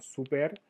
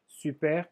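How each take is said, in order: First: Said in the usual way. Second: Super with a French rounded u, as in "sy-pair"; French pronunciation. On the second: Shown as a demonstration. Teacher comparing French with Spanish, French pronunciation. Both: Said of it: "Super como super".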